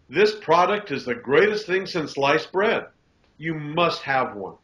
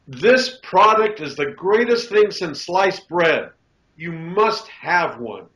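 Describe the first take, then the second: First: The voice is pitched lower. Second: The voice is pitched higher. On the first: The claim sounds genuine. The speaker calls it right. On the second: The claim sounds fraudulent. The speaker calls it wrong.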